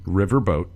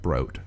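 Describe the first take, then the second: First: Boat is said with no R sound. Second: Boat is said with an R sound. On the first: The speaker calls it right. "We keep the R in the word river" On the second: The speaker calls it wrong. "not broat"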